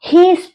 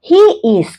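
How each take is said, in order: First: The words merge into one syllable, he's. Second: Two separate words, he and is, are spoken.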